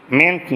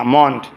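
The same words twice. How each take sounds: First: মেন্ট with a clear "e" vowel; wrong pronunciation. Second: মন্ট with a rounded "o" vowel; correct pronunciation. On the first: Teacher shows students what to avoid, wrong pronunciation. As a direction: say মেন্ট as "ment". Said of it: "মেন্ট না". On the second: Teacher models the ending for students, correct pronunciation. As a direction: say মন্ট as "mont". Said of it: "এটা উচ্চারণ হবে মন্ট". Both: Shown as a demonstration.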